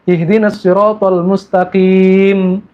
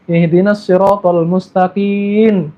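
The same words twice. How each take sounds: First: The last word ends with an m sound. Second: The last word ends with another sound. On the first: The speaker calls it right. "Pakai mim. ... terakhirnya mim" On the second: The speaker calls it wrong. "salah bacanya ini"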